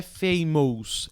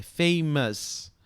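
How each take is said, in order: First: Famous said with a full "ous" vowel, like "mous"; wrong ending on famous. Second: Famous with a reduced "muhs" ending; correct ending on famous. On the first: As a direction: stretch famous out, pronouncing the spelled O in the ending. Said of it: "Não é famous". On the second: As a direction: say famous slowly, the last vowel a neutral schwa. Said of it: "é famous". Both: Shown as a demonstration.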